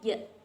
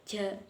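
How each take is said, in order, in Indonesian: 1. Bunyi j-nya bersih tanpa desis dengung. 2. Bunyi j-nya ada desis dengung tambahan. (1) "Padahal yang benar itu ja, ja, nggak ada jesnya" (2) "ada jesnya gitu loh, kayak ja gitu"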